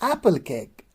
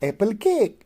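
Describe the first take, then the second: First: The stress falls on the first word. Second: The stress falls on the second word. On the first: The speaker calls it right. "here the stress goes on the first one" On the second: The speaker calls it wrong. "We don't say"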